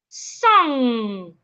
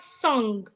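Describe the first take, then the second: First: The word ends in a nasal with no G. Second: The word ends with an audible hard G. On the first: The speaker calls it right. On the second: The speaker calls it wrong.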